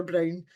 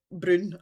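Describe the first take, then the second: First: Said in the usual way. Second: "Brune" with oo in place of ow; Scots pronunciation. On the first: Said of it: "that's 'cause I speak properly". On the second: Shown as a demonstration. Discussing day-to-day language, "Brune" said with Scots oo. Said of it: "I've ever called it Brune".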